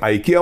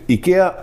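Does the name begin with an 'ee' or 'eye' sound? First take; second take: eye; ee. First: The name begins with an 'eye' sound. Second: The name begins with an 'ee' sound. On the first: The speaker calls it wrong. "चुकीने आयकिया म्हणून केला जातो" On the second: The speaker calls it right. "खरा उच्चार त्यांच्या भाषेत इकेआ असा करावा"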